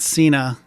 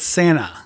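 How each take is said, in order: First: The surname has an Americanized pronunciation. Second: The surname has its original, non-American pronunciation. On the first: This form was adopted to fit in after immigrating. "he wanted Cena" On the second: This is the family's original form of the name. "is what it's supposed supposed to be pronounced"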